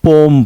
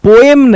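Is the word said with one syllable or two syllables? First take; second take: one; two. First: The word is said with one syllable. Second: The word is said with two syllables. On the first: The speaker calls it right. "बल्कि पोम पढ़ते हैं" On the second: The speaker calls it wrong. "पोएम नहीं पढ़ते"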